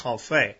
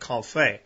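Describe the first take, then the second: First: It is said with the French pronunciation. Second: It is said with the French pronunciation.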